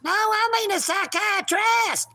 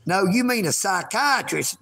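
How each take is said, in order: First: High, whiny cat voice insisting on its word; the kitty talking back in its squeaky voice. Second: Said in the usual way. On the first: Pretend. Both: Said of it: "don't be using my lines there, kitty".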